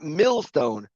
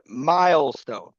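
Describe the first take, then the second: First: The first syllable sounds like 'mill'. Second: The first syllable sounds like 'mile'. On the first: The speaker calls it wrong. "it is pronounced not millstone" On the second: The speaker calls it right. "but milestone"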